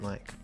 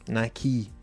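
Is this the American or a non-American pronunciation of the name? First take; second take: non-American; American. First: The name is said in a non-American way. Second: The name is said the American way. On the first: The speaker calls it wrong. "Not Nike" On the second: The speaker calls it right. "Because Nike is how you Americans pronounce it"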